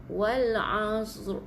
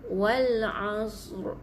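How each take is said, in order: No difference in how they are said.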